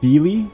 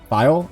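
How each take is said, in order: First: The first vowel is an 'ee' sound. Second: The first vowel is an 'eye' sound. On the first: "Because that could be an E sound" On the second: "I've been calling it File"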